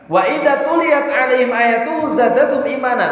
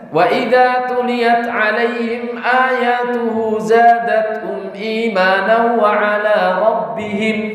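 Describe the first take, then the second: First: The recitation stops right after the word imanan. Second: The recitation runs on past imanan without stopping. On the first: The faith of the believers increases. The speaker calls it right. "Seharusnya berhentinya di sini" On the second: The faith of their Lord also increases. The speaker calls it wrong. "Eh malah bablas"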